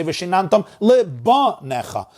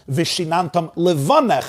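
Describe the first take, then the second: First: "lebanecha" with a hard, stressed ba; lebanecha, b in place of v. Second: "levanech" with a soft v in the middle; levanech, weak v sound. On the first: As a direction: punch a B into lebanecha. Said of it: "turning it into a beis". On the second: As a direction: say levanech with a clear V. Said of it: "So I'm taking the vase". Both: Shown as a demonstration.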